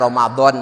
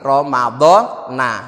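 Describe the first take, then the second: First: The word stops on the final n sound. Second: The word ends with a final short a vowel. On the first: "saya wakafkan aja Ramadan gitu aja" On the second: "jernya tidak kasroh tapi fat fathah"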